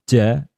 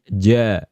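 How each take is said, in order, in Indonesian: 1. Konsonan dilepaskan dengan hembusan napas. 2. Konsonan ditahan tanpa napas yang keluar. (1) "jangan melafalkan ja" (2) "tapi ja ... Tidak ada aliran nafas"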